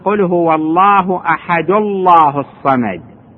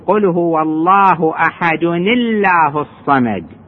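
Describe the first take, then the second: First: No n sound links ahad to Allah. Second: An n sound with i links ahad to Allah. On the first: "يجوز أن لا ينونها الإنسان" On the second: "التقت نون ساكنة مع ألف ساكنة حرك بالكسر"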